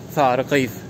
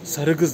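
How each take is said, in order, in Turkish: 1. Her iki kelimedeki ünlüler uzun. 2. Her iki kelimedeki ünlüler kısa. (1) "esas söylenmesi gereken" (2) "kısa söylediğin zaman tuhaf kaçıyor"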